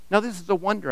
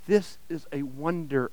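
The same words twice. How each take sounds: First: Said in the usual way. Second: Softer, breathed in awe. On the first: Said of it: "I thought to myself". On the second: Acted. Narrator breathes his amazement at the weeping ragman, hushed. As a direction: say it under your breath in wonder. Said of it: "I breathed".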